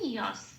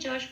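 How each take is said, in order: First: The syllable is pronounced the Sanskrit way. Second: The syllable is pronounced the Bengali way. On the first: The speaker calls it right. "কি বলবো? ইয়স।" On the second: The speaker calls it wrong. "যশ বলবো না"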